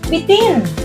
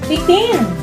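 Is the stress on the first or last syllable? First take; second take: last; last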